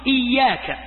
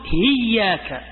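First: The word begins with a glottal stop. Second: The word begins with an h sound. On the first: This is the common standard form. "في لهجتهم نحن نقول إياك" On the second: "يقلبون الإيش؟ الهمزة هاء"

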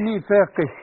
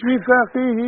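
First: The word ends on a bare 'h' with no vowel. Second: The final vowel after 'h' is drawn out long. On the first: The reciter stops after this word. The speaker calls it right. "اذا وقفنا نقول ميثاقه" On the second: The next word begins with a glottal stop. The speaker calls it wrong. "لا مش ميثاقه، الكلام ده لو ميثاقه لو بعدها همزة"

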